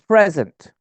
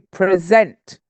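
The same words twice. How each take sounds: First: The stress is on the first syllable. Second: The stress is on the second syllable. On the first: It is a noun. "It's a noun, and the stress is on the first syllable" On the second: It is a verb. "The stress is on the second syllable"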